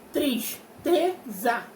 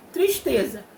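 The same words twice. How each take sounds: First: "Tristeza" in three very slow, separate beats; syllable by syllable. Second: Said in the usual way. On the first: Shown as a demonstration. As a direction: break "Tristeza" into tris, te, za with pauses. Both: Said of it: "Três sílabas".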